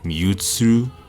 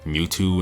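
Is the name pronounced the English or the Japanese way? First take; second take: Japanese; English. First: The name is said with Japanese pronunciation. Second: The name is said with English pronunciation. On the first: "instead of the Japanese pronunciation" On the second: "Mewtwo is Mewtwo"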